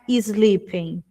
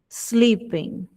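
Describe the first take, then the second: First: An extra i vowel comes before the s. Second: The word starts directly with the s sound. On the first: The speaker calls it wrong. "Ele não tem um som de I antes desse S, então não é sleeping" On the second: The speaker calls it right. "é sleeping"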